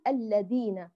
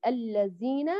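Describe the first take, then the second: First: Slow الذين with a D, "alladina"; dhal turned dal. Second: Slow الذين with a Z, "allazina"; dhal turned zay. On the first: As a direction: demonstrate الذين wrongly with a hard D. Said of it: "لا نقلب الذال دالا". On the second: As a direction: demonstrate الذين wrongly with a buzzing Z. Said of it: "ولا نقلبها زايا". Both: Shown as a demonstration.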